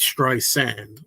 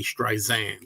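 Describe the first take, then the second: First: The middle consonant is an S sound. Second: The middle consonant is a Z sound. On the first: The speaker calls it right. "it's not Streisand with a Z" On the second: The speaker calls it wrong. "Don't say Streisand"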